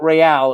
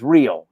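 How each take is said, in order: First: It is pronounced the Spanish way. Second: It is pronounced the English way. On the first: "it wasn't" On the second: "everything was anglicized"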